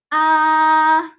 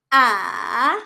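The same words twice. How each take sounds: First: The pitch stays flat and high. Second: The pitch goes down, then up. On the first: "The first tone is pronounced as flat and high" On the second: "para siyang letter V. Bababa muna and then tataas"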